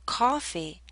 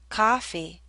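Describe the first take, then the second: First: The first vowel is a rounded aw sound. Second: The first vowel is a relaxed ah sound. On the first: "If you hear aw" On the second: "If you hear ah"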